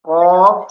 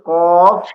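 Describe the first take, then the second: First: The word ends with an f sound. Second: The word ends with an f sound.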